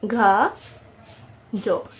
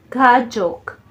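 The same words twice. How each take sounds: First: घाजोक very slowly, as separate घा and जोक; syllable by syllable. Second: Said in the usual way. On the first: Shown as a demonstration. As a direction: stretch घा and leave a long gap before जोक. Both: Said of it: "syllable बन रहे हैं".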